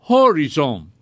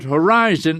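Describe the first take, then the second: First: The stress is on the first syllable. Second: The stress is on the second syllable. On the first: This is the Dutch pronunciation. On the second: This is the English pronunciation.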